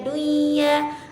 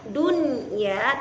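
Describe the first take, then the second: First: The n sound merges into the following ya. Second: The n sound is pronounced clearly before ya. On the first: The speaker calls it wrong. "tidak boleh dibaca" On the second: The speaker calls it right. "dibaca secara idhar"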